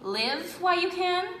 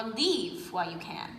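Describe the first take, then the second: First: "Live" said with a short i, as in "give". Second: "Leave" said with a long ee, as in "sleeve". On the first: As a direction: read "Live" as the verb to live. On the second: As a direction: read "Leave" as in going away. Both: Shown as a demonstration. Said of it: "Is she saying".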